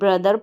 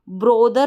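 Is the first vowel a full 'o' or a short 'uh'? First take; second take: short uh; full o. First: The first vowel is a short 'uh' sound. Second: The first vowel is a full 'o' sound. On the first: The speaker calls it right. "ब्रदर पढ़ें" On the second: The speaker calls it wrong. "ब्रोदर ना पढ़ें"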